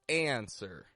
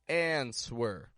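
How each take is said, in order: First: No W sound is pronounced after the N. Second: A W sound is pronounced after the N. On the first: The speaker calls it right. "without the W" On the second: The speaker calls it wrong. "they'll try to say something like answer"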